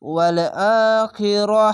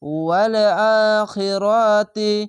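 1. শব্দটি শেষের 'ti' ধ্বনি ছাড়াই থেমে যায়। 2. শব্দটি 'ti' ধ্বনি দিয়ে শেষ হয়, আর পরের শব্দের সঙ্গে মিলিয়ে পড়তে হয়। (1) "আর যদি থামতে গেলে" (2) "এভাবে তি বলে মিলিয়ে পড়বেন"

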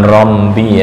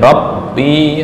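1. Vokal pertama terdengar bulat dengan sengau seperti m. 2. Vokal pertama adalah bunyi 'a' terbuka yang jelas. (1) "Bukan rombi ya" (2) "tapi rabbi"

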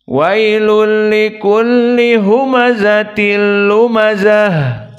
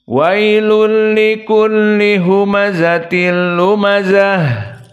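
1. Vokal terakhir adalah bunyi a yang terbuka. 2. Vokal terakhir adalah bunyi a yang terbuka.

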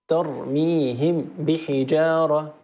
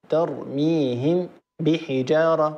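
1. الميم تُنطق كاملة وواضحة قبل الباء. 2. الميم تُنطق كاملة وواضحة قبل الباء.

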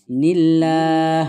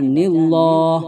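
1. Bunyi l itu tipis dan ringan. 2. Bunyi l itu tebal dan berat. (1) "tarkik atau tipis" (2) "Tidak boleh dibaca nillah"

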